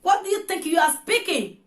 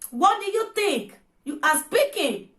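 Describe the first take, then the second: First: Said in the usual way. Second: Each word of What do you think you are speaking spelled out slowly, WHAT leaning hardest; slow down and hammer What; slow emphatic repeat. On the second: Shown as a demonstration. Repeating the question slowly to a woman she is scolding.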